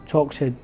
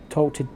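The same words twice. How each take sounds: The two takes are said the same way.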